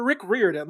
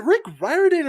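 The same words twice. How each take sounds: First: Riordan said "REER-din"; loud, say Riordan starting like "rear"; second pronunciation option. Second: Riordan said "RYE-er-din"; loud, say Riordan to rhyme with "fireman"; first pronunciation option. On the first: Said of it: "a clip of him saying Riordan". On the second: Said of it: "is it Rick Riordan or". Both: Shown as a demonstration.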